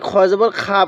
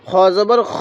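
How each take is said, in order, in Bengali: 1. শেষ দলটি একটি দীর্ঘ স্বরধ্বনি দিয়ে শেষ হয়। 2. শেষ দলটি একটি হ্রস্ব স্বরধ্বনি দিয়ে শেষ হয়। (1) "অনেকেই খ জবর খা পড়ি, না এরকমভাবে পড়বো না" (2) "তাহলে খ জবর খ"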